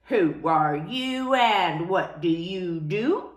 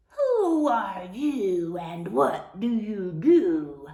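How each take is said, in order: First: Slow, low and unfriendly; a grudging, unwelcoming question; not very nicely. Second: Slow, drawn-out, lightly growled question; a mild mock roar, stretched out; lions roaring. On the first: Acted. Elephants question the cow unkindly, slow and cold. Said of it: "asked, but not very nicely". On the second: Lions challenge the lost cow, in a mild drawn-out roar. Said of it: "the lions roared".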